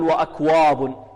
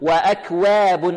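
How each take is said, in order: First: The w sound is heavy and darkened. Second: The w sound is exaggeratedly thin. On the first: "يحذر الطالب من تفخيمها، لا نقول وأكواب" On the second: "والبعض يبالغ في الترقيق"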